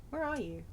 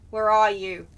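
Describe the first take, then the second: First: Searching softly. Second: Louder, lower call to someone hidden. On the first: Player searching for the vampire, quiet searching. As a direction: murmur it while hunting around. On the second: Player hunting a hidden vampire, calling out. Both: Real, not acted.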